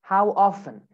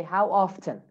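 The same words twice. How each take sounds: First: British "often" as "off-en", silent T; British accent. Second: American "often" with the T sounded; American accent. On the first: Teacher models British "often" for students, T dropped. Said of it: "In British accent". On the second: Teacher models American "often" for students, clear T. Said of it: "In American accent". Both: Shown as a demonstration.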